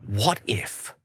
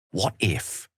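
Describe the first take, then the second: First: Said in the usual way. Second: Hushed musing whisper. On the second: Acted. Wizard thinking aloud about the goddess, whispered. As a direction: breathe the idea as it dawns.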